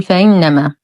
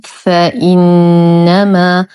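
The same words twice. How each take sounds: First: "فإنما" with the hamza softened into a glide; slurred hamza, mistake demo. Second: "فإنما" with firm glottal stop and long hummed نّ; slow "فإنما", hamza fully sounded, noon held; correct clear hamza. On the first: Teacher warns learners of the error, "فإنما" with eased hamza. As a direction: blur the glottal stop in "فإنما". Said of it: "لا نقول فإنما بالتسهيل وهذا خطأ". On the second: Teacher gives learners the correct form, "فإنما" with clear hamza. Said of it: "والصواب فإنما". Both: Shown as a demonstration.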